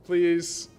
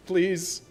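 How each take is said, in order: Both takes have the same delivery.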